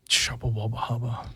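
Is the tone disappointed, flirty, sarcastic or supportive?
disappointed. It is said in a disappointed tone.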